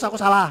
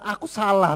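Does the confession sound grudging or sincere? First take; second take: grudging; sincere. First: It sounds grudging and reluctant, brushed off quickly. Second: It sounds sincere and earnest, said with feeling. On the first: The admission is made only under pressure. The speaker calls it wrong. "Tapi bukan berarti terus dengan terpaksa ya" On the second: The admission is made with genuine awareness. The speaker calls it right. "Tetapi dengan sadar benar-benar"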